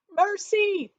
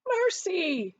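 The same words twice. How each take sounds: First: Terrified high scream. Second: Much higher, louder terrified cry; screaming. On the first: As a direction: shriek for mercy. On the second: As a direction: shriek for mercy again. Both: A narrator's reading. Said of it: "he screamed".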